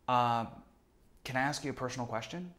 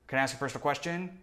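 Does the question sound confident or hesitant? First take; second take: hesitant; confident. First: It is soft and hesitant, slightly stumbling. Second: It is direct and confident, without hesitation. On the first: The asker is genuinely curious and unscripted. The speaker calls it right. "I'm like trying to find my words and stumbling a little bit. It makes it tremendously more authentic and softened" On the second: The asker is following a script. The speaker calls it wrong. "I'm not like"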